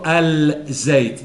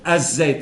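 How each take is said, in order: First: The L of the article is pronounced. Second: The L of the article is silent. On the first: The speaker calls it wrong. "no digo al Zait" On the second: The speaker calls it right. "la L la he eliminado"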